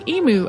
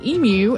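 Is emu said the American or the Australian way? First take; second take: American; Australian. First: It is said in the American way. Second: It is said in the Australian way. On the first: "in the United States, many people say emu, as I just did" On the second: "in Australia, people say emu, as [name] just did"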